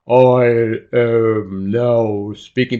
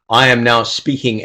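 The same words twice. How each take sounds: First: It is spoken slowly with a lowered pitch. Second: It is spoken at a normal speed and pitch. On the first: "it sounds like I am now speaking, because the pitch changes" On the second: "I am now speaking at a normal speed"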